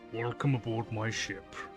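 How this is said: The greeting is delivered in a bored tone. The speaker calls it wrong.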